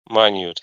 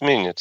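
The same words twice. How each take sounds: First: It is pronounced as the size word. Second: It is pronounced as the time word. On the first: It means very small or detailed. "if it is about size, maybe minute" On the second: It refers to a unit of time. "if it is about time, it's minute"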